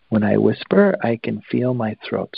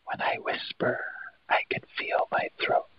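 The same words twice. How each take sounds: First: Said in the usual way. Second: Very soft voiceless whisper. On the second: Shown as a demonstration. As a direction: demonstrate a hushed whisper, all breath. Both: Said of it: "So whisper that a couple of times".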